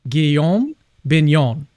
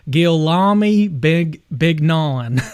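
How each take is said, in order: First: The name is said with its native pronunciation. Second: The name is read as English letters suggest. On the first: The speaker calls it right. "That is really impressive" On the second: The speaker calls it wrong. "if you just spell it out phonetically in like English"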